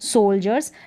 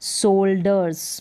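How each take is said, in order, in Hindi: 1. बीच का व्यंजन 'j' की ध्वनि है। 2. बीच का व्यंजन 'd' की ध्वनि है। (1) "ज का साउंड आएगा" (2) "सोल्डर्स नहीं है"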